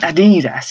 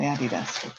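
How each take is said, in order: First: The name is said the American way. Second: The name is said the British way. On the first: "I think Adidas is what the Americans say" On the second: "we tend to say Adidas"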